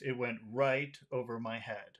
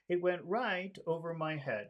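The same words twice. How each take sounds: First: It sounds serious rather than friendly and light. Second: It sounds friendly, with a high focus word. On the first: "now let's do serious" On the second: "that sounds very friendly if the focus word is a high pitch"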